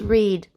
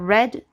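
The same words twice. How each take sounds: First: The vowel is a long ee sound. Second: The vowel is a short e sound. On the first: The action happens now or in general. "to read a book" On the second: The action happened in the past. "I read a book yesterday"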